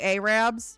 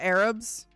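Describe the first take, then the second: First: It is said with a Southern drawled pronunciation. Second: It is said with a standard pronunciation. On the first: The speaker calls it wrong. "you say Arabs" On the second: The speaker calls it right. "instead of Arabs"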